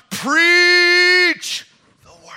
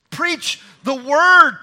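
First: "Preach" shouted high and drawn out, "the word" dropped away; stress on PREACH. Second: "word" raised and drawn out after a measured "Preach"; slow "Preach the word", landing firmly on "word"; stress on WORD. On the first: Preacher demonstrating Paul's words misread, stress on PREACH. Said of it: "let's not put the emphasis in the wrong place". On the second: Paul charging Timothy as intended, stress on WORD. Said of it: "the emphasis is not just on the preaching, it's on preaching the word". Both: Shown as a demonstration.

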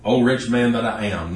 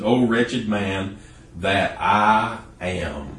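First: Said in the usual way. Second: "O wretched man that I am" very slow, each word set apart; emphatic correction. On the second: Shown as a demonstration. Preacher correcting the misquote for listeners, slow and insistent. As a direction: drag it out to insist on the true words. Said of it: "that's not what he said. He said".

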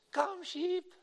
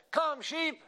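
First: Very high, imitated small child's call; squeaky little-girl yell. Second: High, strong imitated boy's holler; stronger boy's call. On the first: Five-year-old daughter calling the pastor's sheep, squeaky yell. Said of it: "yelled up that hillside with her squeaky voice". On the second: Eight-year-old brother calling sheep up the hillside, strong high yell. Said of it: "with his much stronger voice, he called up that hillside".

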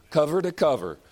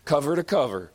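The two takes are said the same way.

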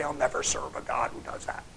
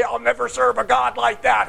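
First: Whispered mock vow. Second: Mock defiance. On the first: The preacher whispers the sinner's vow against God, mocking. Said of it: "and say". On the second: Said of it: "what kind of madness is it to say".

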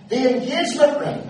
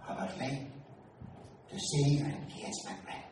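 First: Loud, high proclamation of engagement ring; announced loudly. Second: Soft, hushed request; whispered. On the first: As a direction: broadcast it to the whole shop. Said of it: "but he didn't whisper". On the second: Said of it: "I whispered". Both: Retold or imitated.

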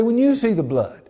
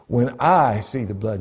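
First: "you" punched high, in contrast with "I"; high-pitched line with the weight on "you"; stress on YOU. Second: "I" as the key word, the rest lighter; stress on I. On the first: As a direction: hit "you" as the wrong word, pitched up. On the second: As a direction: lean on "I" in contrast with "you". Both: Shown as a demonstration. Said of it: "He didn't say".

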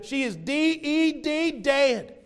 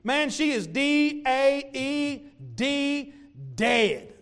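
First: "D E D" spelled slow and high, then "dead" in an Appalachian accent. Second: "D A E D" spelled letter by letter, slow and high; spelled-out dead. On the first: Pastor joking about how Appalachians say dead, Appalachian accent. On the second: Pastor spelling out dead to mock the mourners, slow and high. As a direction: drag out "D A E D" before "dead". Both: Shown as a demonstration. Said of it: "If you're from Appalachia".

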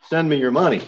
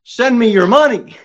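First: Said in the usual way. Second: High mock preacher voice begging; mock televangelist plea; greedy televangelist. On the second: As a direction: sneer it like a money-hungry preacher.

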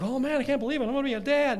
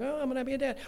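First: Higher and louder, thrilled disbelief; excited new dad. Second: Weary second-time dad. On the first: Preacher imitating himself hearing of the first baby, thrilled. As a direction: burst out with joy at the news. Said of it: "the first time it's like". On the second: Preacher imitating himself hearing of the second baby, deflated. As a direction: shrug it off, been here before. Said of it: "the second time it's like". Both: Retold or imitated.

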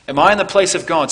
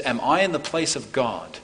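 First: Louder, higher, faster insistent question; ringing preacher's emphasis; emphatic repeat. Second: Said in the usual way. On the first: Retold or imitated. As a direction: press it on them with force. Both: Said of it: "notice how Joseph says".

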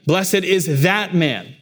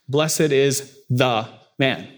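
First: "that" leaned on, slow and higher; slow, pointed stress on "that". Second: Said in the usual way. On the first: Shown as a demonstration. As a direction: land hard on "that" in "Blessed is that man". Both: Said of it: "with an emphasis on that word".

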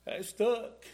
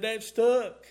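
First: Quoted gently first; said once plainly as the friend's words; retold line. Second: "That stuck" said again, much louder and firm; repeated louder. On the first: Friend's words retold to the church, said plainly. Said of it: "And he said". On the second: Retold or imitated. Retelling the friend's words to the church, louder repeat. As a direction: hammer home "That stuck" the second time. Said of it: "He said".

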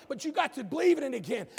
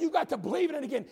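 First: Said in the usual way. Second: "You got to believe in it again" faster and pressed; emphatic quick restatement; repeat with drive. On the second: Shown as a demonstration. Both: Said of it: "I said".

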